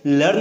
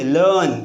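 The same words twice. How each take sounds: First: "लर्न" with the r sounded before n; "लर्न" as lurrn, r audible; wrong r-sounded pronunciation. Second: "लर्न" as luhn, r left silent; falling "लर्न" with no r before n; silent-r pronunciation. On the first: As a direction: pronounce the r in "लर्न". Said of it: "लर्न नहीं बोलते". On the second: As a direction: drop the r, lengthen the vowel in "लर्न". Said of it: "क्या बोलते हैं?". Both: Shown as a demonstration.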